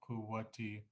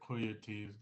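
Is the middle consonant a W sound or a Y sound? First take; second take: W; Y. First: The middle consonant is a W sound. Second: The middle consonant is a Y sound. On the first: This is how other people say it. "Other people would say" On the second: This is the speaker's own way of saying it. "I would say it with a Y"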